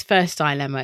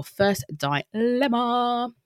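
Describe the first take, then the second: First: Said in the usual way. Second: Drawn-out, high held last note; sing-song announcement. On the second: Pretend. Podcast host introducing the first dilemma, sing-song announcement. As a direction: announce it like a jingle, stretched out.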